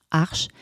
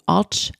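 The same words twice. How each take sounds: First: "arche" said French-style, ending in sh; French pronunciation. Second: "arch" said English-style, ending in tch; English pronunciation. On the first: Teacher showing learners the shared word, French pronunciation of "arche". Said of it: "la version française avec l'accent français". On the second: Teacher showing learners the shared word, English pronunciation of "arch". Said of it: "c'est le même mot". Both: Shown as a demonstration.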